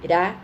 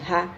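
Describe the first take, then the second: First: The r is a light single tap. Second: The r is a strong throaty sound. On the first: "quando for um R, ela tem que ter som de ra" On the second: "Quando for com dois R's no meio ... ela tem que ter som de ra"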